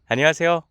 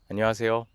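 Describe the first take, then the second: First: It sounds very bright and smiling. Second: It sounds somewhat brighter and more relaxed. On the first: "눈까지 웃어보는 거고 기분까지 조금 밝게 해보는 거예요" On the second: "입꼬리를 살짝 한번 올려보고 해볼게요"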